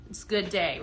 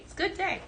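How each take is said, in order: First: Said in the usual way. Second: Repeated much higher and light; high sing-song. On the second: Real, not acted. Host echoing herself to viewers, high and playful. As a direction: lift it up high, playful echo.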